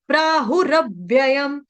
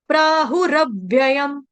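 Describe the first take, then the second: No difference in how they are said.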